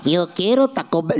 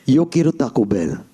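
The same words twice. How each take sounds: First: It is said in a cartoonish, stereotyped accent. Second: It is said in the speaker's natural voice. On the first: "We're not doing Speedy Gonzalez" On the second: "Just do your own voice"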